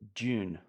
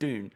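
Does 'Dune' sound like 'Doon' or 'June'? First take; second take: June; Doon. First: It is said in the speaker's own accent, like 'June'. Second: It is said in an American accent, like 'Doon'.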